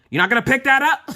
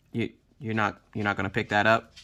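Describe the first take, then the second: First: Higher-pitched, incredulous parental yell; scare-the-kids yell. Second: Low, soft menacing question; scaring the kids. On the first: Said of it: "I will yell at them". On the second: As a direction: drop low and quiet, like a parent's warning. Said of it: "I like to scare the kids". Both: Acted.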